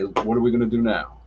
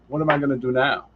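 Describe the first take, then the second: First: It sounds calm and positive. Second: It sounds worried and negative.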